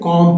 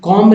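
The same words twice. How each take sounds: First: No b sound is heard after the m. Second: A b sound is heard after the m. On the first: The speaker calls it right. "कॉम पढ़ेंगे" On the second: The speaker calls it wrong. "कॉम नहीं पढ़ेंगे"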